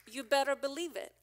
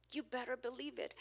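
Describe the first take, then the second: First: You "better" believe it, punching "better"; emphatic. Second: Softer repeat, level dropped; soft aside with "you" leaned on; quiet echo. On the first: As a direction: hit "better" hard and a bit louder. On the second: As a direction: say it again under your breath, stressing "you". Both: Shown as a demonstration.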